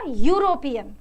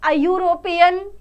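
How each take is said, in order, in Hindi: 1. शब्द 'y' ध्वनि से शुरू होता है। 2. शब्द सादे स्वर की ध्वनि से शुरू होता है। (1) "पर होगा क्या, यूरोपियन" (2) "अयूरोपियन तो हमने बोल दिया"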